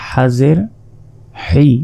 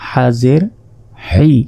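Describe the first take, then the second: No difference in how they are said.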